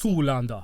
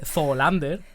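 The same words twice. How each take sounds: First: The name is said with a German-sounding accent. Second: The name is said with a Spanish reading. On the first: "ahí te has ido un poco al alemán" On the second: "leído como lo leería Cela"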